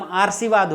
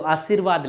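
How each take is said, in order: First: आशीर्वाद said as "aar-shee-vaad"; mispronounced. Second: Said in the usual way. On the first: Shown as a demonstration. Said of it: "नहीं, ये तो बात बनी नहीं". (आशीर्वाद का गलत उच्चारण, "आर्शीवाद") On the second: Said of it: "लेकिन हमें तो आशीर्वाद लिखना है".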